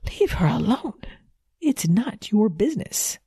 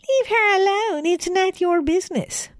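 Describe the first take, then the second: First: It is said in a natural voice. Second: It is said in a mocking fake voice.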